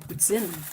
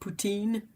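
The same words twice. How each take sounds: First: It is said with a French Canadian accent. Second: It is said with an English accent.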